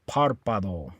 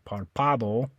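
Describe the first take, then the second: First: The stress is on the first syllable. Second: The stress is on the second syllable. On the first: The speaker calls it right. "put the stress on this A. So you say párpado" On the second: The speaker calls it wrong. "you don't stress this one. You don't say párpado"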